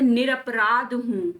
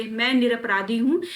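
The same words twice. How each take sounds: First: निरपराध drawn out, no final ee; correct word form. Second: निरपराधी with a final long ee; wrong word form. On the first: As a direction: say निरपराध slowly, ending on dh. (निरपराध धीरे, अंत में ई नहीं) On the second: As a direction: say निरपराधी ending in dhee. (निरपराधी के अंत में 'धी') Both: Shown as a demonstration. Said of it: "ये वर्तनी भी गलत है".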